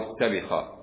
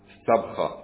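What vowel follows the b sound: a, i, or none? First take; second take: i; none. First: The b is followed by an i vowel. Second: The b is followed by no vowel. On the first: "وكسرا" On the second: "والسكون"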